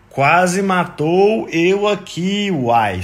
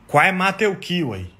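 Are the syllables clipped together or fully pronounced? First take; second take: full; clipped. First: Every syllable is pronounced fully and separately. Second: Syllables are swallowed and run together.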